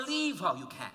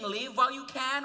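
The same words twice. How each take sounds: First: "leave" said with a long ee, as in sleeve; leave while you can. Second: "live" said with a short i, as in give; live while you can. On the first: Narrator offering the other hearing of the lyric, "leave" with long ee. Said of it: "Is she saying live while you can". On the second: Narrator asking fans if the lyric says "live", short i. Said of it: "or leave while you can". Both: Shown as a demonstration.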